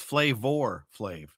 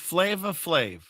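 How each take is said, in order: First: The first word ends with an 'r' sound. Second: The first word ends in a plain vowel. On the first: This is the name as it really is. The speaker calls it right. "he's always been known as [name]" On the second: This is the name as remembered. The speaker calls it wrong. "In my reality, it was [name]"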